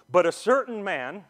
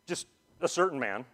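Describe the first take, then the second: First: "certain" lifted with a rise, read aloud from the Bible; scripture reading. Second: Said in the usual way. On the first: Shown as a demonstration. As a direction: read "certain" as quoted text, rising.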